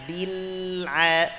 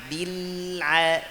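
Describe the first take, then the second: The two takes are said the same way.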